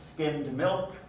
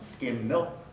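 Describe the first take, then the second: First: The d before milk is pronounced. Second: The d before milk is dropped. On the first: "Skimmed milk becomes skim milk" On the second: "becomes skim milk"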